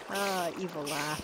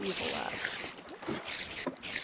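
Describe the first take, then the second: First: Said in the usual way. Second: Whispered, very slowly drawn out; mock evil whisper. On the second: Gloating to viewers over the horse paddock, slow mock-evil whisper. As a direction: hiss it slowly like a cartoon villain.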